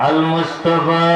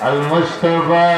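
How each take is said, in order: Both takes have the same delivery.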